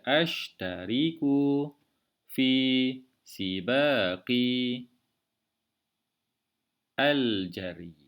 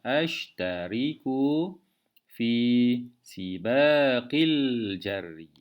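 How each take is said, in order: First: The article 'al' is said separately, unlinked. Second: The article is linked onto the previous word. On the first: The speaker calls it wrong. "sukar untuk kita baca" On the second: The speaker calls it right. "Cara membaca yang betul"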